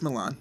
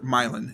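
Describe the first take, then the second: First: It is said the usual, non-local way. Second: It is said the local Ohio way.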